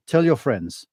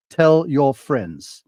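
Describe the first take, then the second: First: Said in the usual way. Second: "tell your friends" drawn out slowly, each word leaned on; "tell" hit hard, "tell your friends" said slowly; slow emphatic repeat. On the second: Shown as a demonstration.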